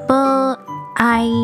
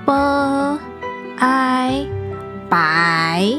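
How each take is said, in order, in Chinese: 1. 音高保持高而平。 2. 音高先降到低，然后上升。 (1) "那拜呢是一声" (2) "我们拼拼看三声"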